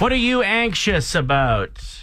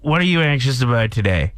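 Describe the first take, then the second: First: It is said like a game-show host. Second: It is said in a conversational tone.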